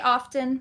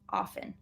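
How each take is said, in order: First: The T sound is pronounced in the middle. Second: The T sound is silent in the middle.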